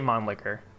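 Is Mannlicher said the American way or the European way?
European. It is said with a European-style pronunciation. The speaker calls it right. "I say Mannlicher"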